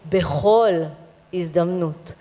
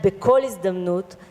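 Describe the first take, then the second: First: The second word has a soft, breathy consonant. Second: The second word has a hard k consonant. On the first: The speaker calls it right. "if I take the dagesh out of the bet" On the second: The speaker calls it wrong. "and not"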